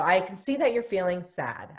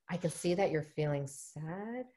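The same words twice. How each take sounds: First: "sad" brought down firmly at the end; said as a statement. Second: Slow, soft, with "sad" rising questioningly; said as a question. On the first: Therapist correcting the reflection, as a statement. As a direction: state it, letting "sad" fall. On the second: Therapist showing a reflection wrongly, as a question. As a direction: draw it out and lift "sad" into a question. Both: Shown as a demonstration. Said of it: "I just said in a question, so that's wrong".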